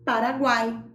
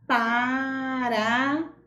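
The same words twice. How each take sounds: First: Said in the usual way. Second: "Paraguai" drawn out slowly, "guai" stretched so each vowel is heard; slow stretched demo. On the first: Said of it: "Vamos para um exemplo?". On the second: Shown as a demonstration. Teacher to pupils, showing the triphthong, stretched slowly. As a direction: spell out "Paraguai" with your voice, slowly. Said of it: "E quando nós pronunciamos a palavra Paraguai".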